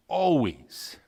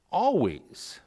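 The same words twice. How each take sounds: First: Said in the usual way. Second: Always repeated higher for emphasis; second Always pitched up and stressed; emphatic repeat. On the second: Shown as a demonstration. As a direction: lift Always up to drive it home. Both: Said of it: "it's repeated for emphasis".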